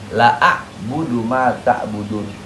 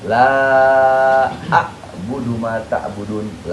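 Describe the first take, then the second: First: The vowel of 'la' is cut short. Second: The vowel of 'la' is held long. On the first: Indeed I worship what you worship. "ente bacanya pendek" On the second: I do not worship what you worship. "Dibaca panjang"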